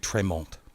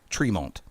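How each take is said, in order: First: The name is said with a French pronunciation. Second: The name is said with an English pronunciation. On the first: The speaker calls it wrong. "you went French there for a minute. Yeah, I did. French Canadian, actually" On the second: The speaker calls it right. "Excuse me"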